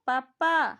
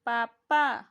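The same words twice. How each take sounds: First: पापा said loudly with a strong lip burst; teacher demonstrating lip sounds; exaggerated lips. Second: पापा said again, lower and loud, with the lips pressed; exaggerated lips repeated. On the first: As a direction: pop the lips hard on पापा. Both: Shown as a demonstration. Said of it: "तो बोल के देखो तो".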